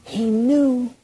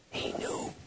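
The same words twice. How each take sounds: First: High, sustained, drawn-out stress on knew; high, voiced emphasis. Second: Barely audible, breath-only whisper; awed whisper. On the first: Preacher repeating what Jesus knew, high emphatic tone. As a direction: lift the pitch and hold knew. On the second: Preacher revealing what Jesus knew, awed whisper. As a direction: whisper it like a revelation. Hushed revelation, then voiced. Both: Real, not acted.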